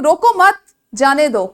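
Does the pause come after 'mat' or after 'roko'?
after mat. The pause comes right after 'mat'. Do not stop the person; let them go. "मैं आपसे ये कह रही हूं कि इसको मत रोको, इसे जाने दो"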